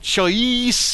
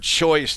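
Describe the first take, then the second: First: The vowel is bent into an odd sound. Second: The word has its plain, ordinary vowel. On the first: The speaker calls it wrong. "turns into choice" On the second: The speaker calls it right. "the word choice"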